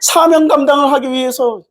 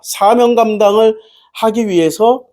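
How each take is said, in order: First: It is said in a dramatic revival-preacher voice. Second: It is said in an ordinary speaking voice.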